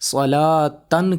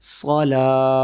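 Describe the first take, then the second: First: The word ends with a full 'tan' sound. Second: The word ends in a bare 'ah' sound. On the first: The reader continues without stopping. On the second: The reader stops on this word.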